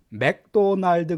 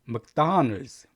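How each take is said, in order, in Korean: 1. 한국식 음절로, 강세 없이 고르게 발음해요. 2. 영어식으로 발음해요, 'Don'에 강세를 줘요. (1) "맥도날드 그러시면 안 돼요" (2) "이게 맥보다는 묵에 가까워요. 다의 강세가 있습니다"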